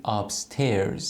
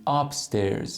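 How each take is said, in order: First: Upstairs with the second part, stairs, stressed, said slowly; correct stress, slow. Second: Upstairs with the first part, up, stressed, said slowly; wrong stress, slow. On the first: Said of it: "میگید upstairs". (upstairs با استرس درست روی بخش دوم) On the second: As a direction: slowly put the weight on up in upstairs. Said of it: "نمیگید upstairs". (upstairs با استرس اشتباه روی بخش اول) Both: Shown as a demonstration.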